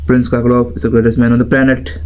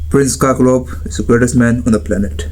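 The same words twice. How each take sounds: First: The last word stays high in pitch. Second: The last word is pressed down low. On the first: The speaker calls it wrong. "That sounds high pitch, right?" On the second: The speaker calls it right. "Last last वाले word को दबा दो। Like"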